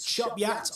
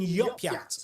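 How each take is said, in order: First: It starts with 'ch' and ends with 'yat'. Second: It starts with 'y' and ends with 'yat'. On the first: "it's Chopyat" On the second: "or even Yopyat, according to one commenter"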